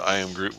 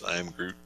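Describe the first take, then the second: First: Said in the usual way. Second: Soft, quiet little Groot imitation; lightly imitating a toddler's Groot; Baby Groot voice. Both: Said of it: "with his own kind of Baby Groot voice".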